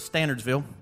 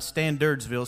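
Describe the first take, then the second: First: No 'd' sound follows 'Stan' in the name. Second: A 'd' sound follows 'Stan' in the name. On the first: The speaker calls it right. "I've been saying this wrong all this time" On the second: The speaker calls it wrong. "That's not Standardsville"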